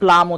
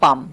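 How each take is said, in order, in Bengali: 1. L ধ্বনিটি স্পষ্ট উচ্চারিত হয়। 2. L ধ্বনিটি নীরব থাকে। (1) "প্লাম মানে এল সহ উচ্চারণ করে ফেলে" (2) "এল লেটার সাইলেন্ট থাকবে"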